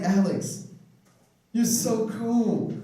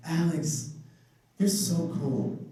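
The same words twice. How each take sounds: First: Drawn-out, higher mock flattery; slow flattering recruiter. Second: Mild mock flattery at normal pace; a hint of the sweet-talking recruiter; lightly voiced recruiter. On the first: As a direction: stretch out "you're so cool" like a sweet-talker. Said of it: "she was just like". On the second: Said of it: "she said something like".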